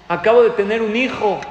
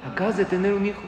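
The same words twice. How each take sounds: First: Loud, higher, elated statement; retold joyful announcement. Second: Higher-pitched question at normal volume; surprised echo question. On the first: New father telling his rabbi, loud retold joy. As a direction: proclaim the happy news with a big lift. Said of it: "con una sonrisa en la boca". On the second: Retold or imitated. Rabbi questioning the new father, retold surprise. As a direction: echo the news back in mild disbelief. Rabbi reacts to unexpected news.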